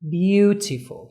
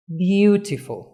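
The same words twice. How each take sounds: First: "beautiful" stretched very slowly with BEAU punched; stress on first syllable. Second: Said in the usual way. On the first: Shown as a demonstration. Teacher drilling students, BEAU stressed slowly. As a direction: drag out "beautiful", hit BEAU hard. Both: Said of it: "اللي في الأول".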